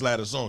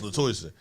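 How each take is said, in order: First: The middle sounds like 'der', as in ladder. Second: The middle sounds like 'toy', as in toy. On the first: This is how the teller first said the name. The speaker calls it wrong. "I said it's Ladder Song" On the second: This is how the name's owner says it. The speaker calls it right. "He said, nah, it's Latoyson"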